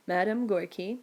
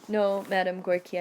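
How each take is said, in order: First: A touch of charm on "Madame Gorky", rising; lightly charming address, "Madame Gorky" rising at the end; engaging tones. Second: Firm "No, Madame Gorky", louder, "No" stressed; persistent. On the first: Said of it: "in my most engaging tones". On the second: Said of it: "I persisted". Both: Retold or imitated.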